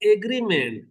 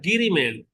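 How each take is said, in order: First: The word begins with an 'a' vowel sound. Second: The word begins directly with a 'g' sound. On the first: This is the original English form. "अंग्रेज बोला एग्रीमेंट" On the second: This is the locally adapted form. "यहां से ए क्या हो गया? खत्म हो गया"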